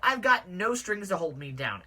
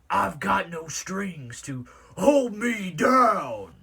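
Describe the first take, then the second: First: It is read in the speaker's normal voice. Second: It is read in a put-on character voice.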